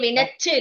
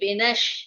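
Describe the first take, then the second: First: The middle consonant is a 'ch' sound. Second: The middle consonant is an 'sh' sound. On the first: The speaker calls it wrong. "வினச்சு இல்ல" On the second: The speaker calls it right. "வினஷ் இஷு போடும்"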